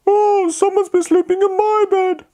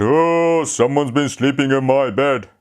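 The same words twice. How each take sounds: First: High Mummy Bear voice; a surprised mother bear, pitched up high. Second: Said in the usual way. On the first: Acted. Mummy Bear's line.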